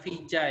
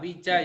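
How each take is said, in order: First: The word begins with a v sound. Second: The word begins with a w sound. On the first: The speaker calls it wrong. "bukan vija ya" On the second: The speaker calls it right. "wija ya"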